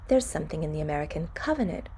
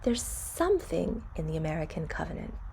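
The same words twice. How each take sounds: First: The stress falls on the word covenant. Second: The stress falls on the word something. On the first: A neutral statement with the content noun in focus. "Normally, we'd say, ... We would stress the noun" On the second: It points to something special that is hard to define. "we can choose to stress the word something if we want to emphasize something special"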